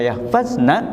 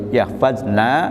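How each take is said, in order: First: The vowels in the word are kept short. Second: A vowel in the word is drawn out long. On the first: It refers to the women. The speaker calls it right. "mereka kaum wanita itu" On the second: It refers to 'we' instead of the women. The speaker calls it wrong. "jangan dibaca panjang"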